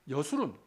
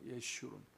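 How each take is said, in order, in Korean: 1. 이 이름은 yeo-su-run으로 발음하며, 평범한 s 소리입니다. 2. 이 이름은 ye-shu-run으로 발음하며, sh 소리입니다.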